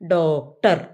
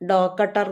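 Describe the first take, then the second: First: The k and t are joined as a cluster. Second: A vowel splits the k and t apart. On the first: The speaker calls it right. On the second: The speaker calls it wrong.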